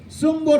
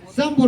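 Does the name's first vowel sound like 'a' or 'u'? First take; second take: u; a. First: The first vowel sounds like 'u'. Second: The first vowel sounds like 'a'. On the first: The speaker calls it wrong. "Looks like a U" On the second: The speaker calls it right. "but it's Sam, I think"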